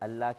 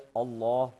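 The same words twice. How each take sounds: First: The l sound is thin and light. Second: The l sound is full and heavy. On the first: The speaker calls it wrong. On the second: The speaker calls it right.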